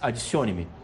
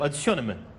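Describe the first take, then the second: First: It is said in a Brazilian Portuguese accent. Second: It is said imitating a European Portuguese accent.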